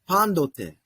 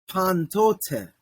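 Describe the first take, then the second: First: The consonant after the n is a D sound. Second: The consonant after the n is a T sound. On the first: The speaker calls it right. "So it really sounds like pandote" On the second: The speaker calls it wrong. "it doesn't sound like pantote"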